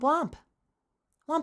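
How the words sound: The pitch stays level or goes up. Another person's newer way of saying it. "Kind of goes like the same note or it goes higher"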